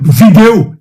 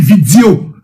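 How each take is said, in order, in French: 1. Le mot est prononcé de manière standard. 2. Le mot est prononcé de manière déformée, moqueuse. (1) "Il ne veut pas prononcer vidéo" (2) "il dit vidéo"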